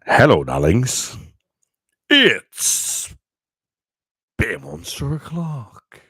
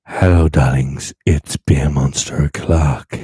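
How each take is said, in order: First: Announcer voice. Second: Loud, low announcer intro. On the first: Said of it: "I'm not gonna sound like an announcer now". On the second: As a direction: boom it like a radio host. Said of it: "Do I sound really beautiful now?". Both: Shown as a demonstration.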